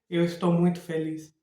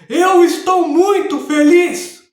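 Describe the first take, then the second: First: It is said weakly, showing no emotion. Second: It is said in an angry, tense voice.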